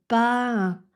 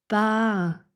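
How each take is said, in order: Both takes have the same delivery.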